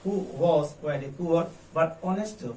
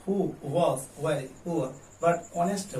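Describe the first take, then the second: First: Very slow question, rising at the end; slow model read. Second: "Who" set apart by a pause, then slow; pause after who. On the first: (धीमा प्रश्न वाचन) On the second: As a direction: split off "Who" before the rest. ("Who" के बाद रुककर पढ़ना) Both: Shown as a demonstration. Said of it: "कैसे बोलेंगे?".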